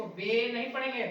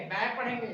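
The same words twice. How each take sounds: First: बे said as a plain long "bay"; wrong reading. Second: बै said with the open "ai" sound; right reading. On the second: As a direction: give बै its proper open vowel. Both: Shown as a demonstration.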